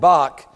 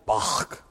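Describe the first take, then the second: First: The word ends with a hard k sound. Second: The word ends with a raspy throat-clearing sound. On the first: The speaker calls it wrong. "it was not Johann Sebastian Bach" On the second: The speaker calls it right. "you got to clear your throat, like if you ever say Bach right in German"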